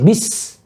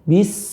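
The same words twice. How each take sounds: First: The syllable is pushed out with force. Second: The syllable is said softly without strain. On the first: The speaker calls it wrong. "Bis itu memaksa nih" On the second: The speaker calls it right. "Tapi bismil"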